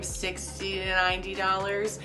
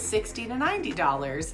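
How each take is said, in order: First: Some consonants are clear, others still slurred. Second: All the consonants are pronounced clearly. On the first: The speech was partly recovered. "After a while, it became" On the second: The speech was fully recovered. "and I had it all back"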